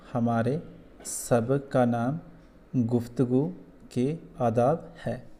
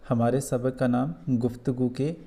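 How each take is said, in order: First: Each phrase read slowly, with pauses between; teacher modelling slow, careful reading; slow model reading. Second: Said in the usual way. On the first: Shown as a demonstration. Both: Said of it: "ऐसे इसको पढ़ना है".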